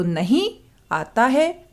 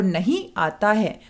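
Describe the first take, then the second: First: Rising "नहीं", a break, then "आता है"; pause after नहीं. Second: "नहीं आता है" in one breath; "नहीं आता है" as a single unbroken group; no pause after नहीं. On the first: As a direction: stop after "नहीं" before giving "आता है". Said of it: "नहीं के पीछे कोमा लगाने से". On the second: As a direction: run "नहीं" directly into "आता है". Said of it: "कोमा ना लगाने से". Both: Shown as a demonstration.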